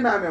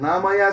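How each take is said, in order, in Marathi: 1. हे नाव दोन अक्षरांत म्हटले जाते. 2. हे नाव तीन अक्षरांत म्हटले जाते. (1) "तो कोबराने नाम्या म्हणायचं" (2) "आपण म्हणायचं नामया"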